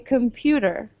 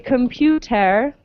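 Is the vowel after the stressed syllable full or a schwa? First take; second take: schwa; full. First: The vowel after the stress is a schwa. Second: The vowel after the stress is a full E. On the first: The speaker calls it right. "the E is pronounced as a schwa" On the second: The speaker calls it wrong. "we don't say computer"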